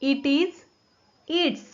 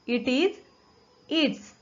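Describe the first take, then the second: No difference in how they are said.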